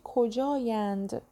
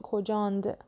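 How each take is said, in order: First: The word ends in a longer -ayand. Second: The word ends in -and, with a final d. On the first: This is the standard written form. The speaker calls it right. "تو نوشتاری مینویسیم چی؟" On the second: This is a mixed form, neither spoken nor written. The speaker calls it wrong. "نمیگیم کجاند"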